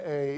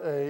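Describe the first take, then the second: First: A said as the letter name, "ay"; long A as taught. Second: A said as in "cat"; short A as taught. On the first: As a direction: say A like the vowel in "day". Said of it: "long A is pronounced A". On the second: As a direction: say A with an open "aah" as in "apple". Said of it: "short A is pronounced A". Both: Shown as a demonstration.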